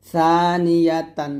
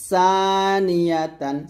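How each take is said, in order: First: Tongue to upper teeth to begin সানিয়াতান slowly; thin tha. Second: সানিয়াতান with hissed S onset, stretched; sharp sin. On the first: Teacher explaining tongue placement, সানিয়াতান with TH onset. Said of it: "জিহ্বাটা উপরে দাঁতে লাগাবেন". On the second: Teacher explaining tongue placement, সানিয়াতান with sharp S. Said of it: "সিনটা নিচে লাগাবেন". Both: Shown as a demonstration.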